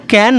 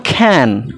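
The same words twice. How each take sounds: First: ক্যান with a plain k, no puff of air; ক্যান opening on an unaspirated k. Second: খ্যান with a strong puff of air after the k; খ্যান opening on an aspirated kh. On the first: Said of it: "উচ্চারণটা কিন্তু ক্যান নয়". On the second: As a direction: breathe out hard on the first sound of খ্যান. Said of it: "উচ্চারণটা বা খ্যান". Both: Shown as a demonstration.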